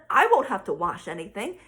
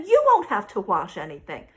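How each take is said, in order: First: "I" picked out against the rest; stress on I. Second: "you" punched louder; stress on YOU. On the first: Mom listing benefits for herself, stress on "I". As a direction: lean on "I", then drop lower. Contrasts I with you in repeat. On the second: Mom turning the benefit to her daughter, stress on "you". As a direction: lean hard on "you". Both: Retold or imitated.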